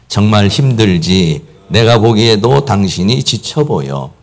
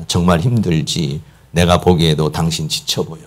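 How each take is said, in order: First: Very slow, spaced words for men to repeat; slow group recital. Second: Gentle empathy. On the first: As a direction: lead the room through it slowly. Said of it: "우리 남자들만 한번 같이 한번 해보겠어요". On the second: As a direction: console a tired wife quietly. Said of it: "옆에서 이렇게 대화를 해줍니다". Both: Shown as a demonstration.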